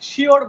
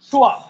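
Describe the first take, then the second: First: It ends with an audible r sound. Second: It ends in a vowel with no r sound. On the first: "আমরা যেটাকে কি বলি শিওর বলি" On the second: "শব্দটা দেখেন শুয়া"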